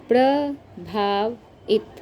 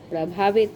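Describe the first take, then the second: First: प्रभावित pulled apart slowly; teacher stretching the word; very slow sounding out. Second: Said in the usual way. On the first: Shown as a demonstration. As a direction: spell out प्रभावित by its parts. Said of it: "teacher sounds out word slowly". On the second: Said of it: "teacher says word whole".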